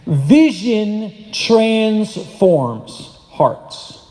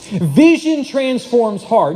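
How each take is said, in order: First: Very slow, word by word; slow dictation. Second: Slow but connected emphasis; measured repeat. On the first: Preacher giving the congregation a line to write down, very slow dictation. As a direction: spell out the key line with long gaps between words. Key line given for writing down. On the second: Preacher repeating the line for the congregation, slow and connected. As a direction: repeat the key line slowly as one phrase. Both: Real, not acted.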